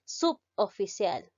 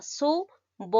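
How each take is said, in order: First: Suboficial broken as sub-o-fi-cial, slowly; wrong syllables. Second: Suboficial split su-bo-fi-cial, said a bit higher; suboficial, la B va con la O; correct syllables. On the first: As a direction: say suboficial wrongly, sub held apart before o-ficial. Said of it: "No debes pronunciar". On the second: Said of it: "se pronuncia de esta manera". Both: Shown as a demonstration.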